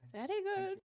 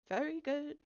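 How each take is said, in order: First: It is spoken in an old English-style character accent. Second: It is spoken in the speaker's own plain voice. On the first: "why is she like old English now?" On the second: "maybe I'll just do my voice"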